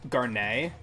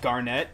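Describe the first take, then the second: First: The final T sound is left silent. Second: The final T sound is pronounced. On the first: "The T is silent" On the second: "her name isn't Garnet"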